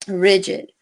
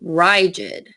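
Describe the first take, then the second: First: The stressed vowel is short. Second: The stressed vowel is long.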